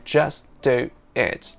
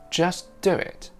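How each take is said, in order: First: No w sound joins do and it. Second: A faint w sound joins do and it. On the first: The speaker calls it wrong. "We don't say just do it" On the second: The speaker calls it right. "Listen out for that tiny bit of w sound between do and it"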